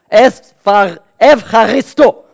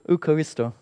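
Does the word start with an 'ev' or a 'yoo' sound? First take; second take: ev; yoo. First: It starts with 'ev', said forcefully from the belly. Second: It starts with an English-like 'yoo' sound. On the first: The speaker calls it right. "Man muss ein bisschen spucken, ja, es kommt von dem Bauch" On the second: The speaker calls it wrong. "es ist wichtig, nicht in Griechenland gehen und jemand gibt dir etwas und dann sagst du"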